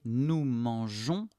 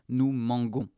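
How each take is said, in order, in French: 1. La consonne du milieu est un son zh doux. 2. La consonne du milieu est un son g dur. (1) "nous devons rajouter un E pour éviter d'affecter la prononciation" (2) "S'il n'y a pas le E, on dit nous mangons. Et ce n'est pas correct"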